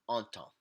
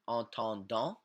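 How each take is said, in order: First: The final ending is left silent. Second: The final ending is pronounced aloud. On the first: The speaker calls it right. "we just say entend" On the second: The speaker calls it wrong. "We don't say entendant"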